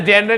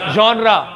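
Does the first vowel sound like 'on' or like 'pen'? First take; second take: pen; on. First: The first vowel is an 'e' sound. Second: The first vowel is an open 'o' sound. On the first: The speaker calls it wrong. "इसे जेनरे नहीं बोलते हो" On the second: The speaker calls it right. "जॉनरा, ठीक है"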